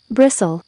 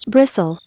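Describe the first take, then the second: No difference in how they are said.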